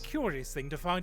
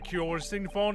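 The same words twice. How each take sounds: First: It is spoken in a strongly posh British accent. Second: It is spoken in a mild British accent. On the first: The speaker calls it right. "sound more posh" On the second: The speaker calls it wrong. "Some sort of British accent"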